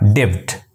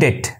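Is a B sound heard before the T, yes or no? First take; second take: yes; no. First: The word has an audible B sound before the T. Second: The word has no B sound before the T. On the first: The speaker calls it wrong. "not debt" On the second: The speaker calls it right. "Okay, debt"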